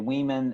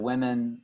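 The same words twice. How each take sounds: First: The word has a foreign, Italian-accented pronunciation. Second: The word has a standard English pronunciation. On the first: The speaker calls it wrong. "I heard Alicia say women" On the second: The speaker calls it right. "instead of women"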